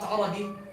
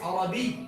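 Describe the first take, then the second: First: The y sound is short and single. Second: The y sound is held doubled. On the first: The speaker calls it wrong. "not Arabi" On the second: The speaker calls it right. "you show the tashdid of the ya"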